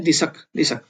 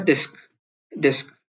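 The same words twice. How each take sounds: First: दिसक with a weak s sound; softened s. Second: डिस्क said clearly; careful reading. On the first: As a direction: say दिसक, barely voicing the s. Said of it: "इसको भी पढ़ सकते हैं". (दिसक, स हल्का करके) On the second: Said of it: "स का साउंड है वो कम हो जाता है". (डिस्क साफ़ पढ़ें) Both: Shown as a demonstration.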